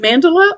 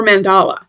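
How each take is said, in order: First: "mandala" as MAN-duh-luh; first-syllable stress. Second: "mandala" as man-DAH-luh; alternative pronunciation. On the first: Vlogger asking which is right, "mandala" as MAN-duh-luh. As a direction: hit the first syllable of "mandala", quick weak middle. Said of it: "I say mandala". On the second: Vlogger offering the other option, "mandala" as man-DAH-luh. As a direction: lean on an open "ah" in the middle of "mandala". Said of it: "Is it mandala or mandala?". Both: Shown as a demonstration.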